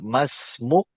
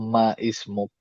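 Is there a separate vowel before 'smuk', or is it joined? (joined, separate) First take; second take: joined; separate. First: The word is joined without an extra vowel. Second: An extra vowel is sounded before 'smuk'. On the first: The speaker calls it right. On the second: The speaker calls it wrong.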